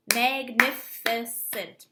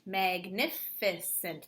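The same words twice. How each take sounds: First: Magnificent clapped out slowly, MAG-NI-FI-CENT, louder; clapping syllables. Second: Magnificent clapped slowly again, quieter; softer clapped repeat. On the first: Teacher claps syllables for her class, slow and loud. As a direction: say Magnificent slowly, one clap per syllable. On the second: Teacher repeats the clapped word more quietly. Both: Shown as a demonstration. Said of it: "clapping that word to see how many syllables".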